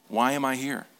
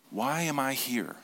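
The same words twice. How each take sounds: First: Said in the usual way. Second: Drawn-out reflective repeat; slower repeat. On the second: Shown as a demonstration. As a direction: ask it again slowly and softly.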